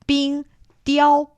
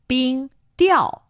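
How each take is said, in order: First: The second syllable has a high level tone. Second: The second syllable has a falling tone. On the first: It means ice sculpture. "冰雕 first tone is ice sculpture" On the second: It means ice fishing. "冰雕 fourth tone is ice fishing"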